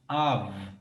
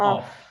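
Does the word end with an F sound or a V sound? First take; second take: V sound; F sound. First: The word ends with a V sound. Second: The word ends with an F sound. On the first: The speaker calls it right. "tem som de V" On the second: The speaker calls it wrong. "não tem som de F"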